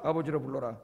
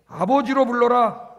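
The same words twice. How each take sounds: First: Soft, lower repetition; hushed repeat of the command; quiet echo. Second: Slow, loud, stressed; slow commanding proclamation; emphatic command. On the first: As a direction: let it fall softly. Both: Acted.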